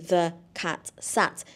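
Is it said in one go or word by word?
word by word. Each word is said separately with pauses.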